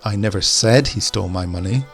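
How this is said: The stress falls on the word said. It may have been thought but not said.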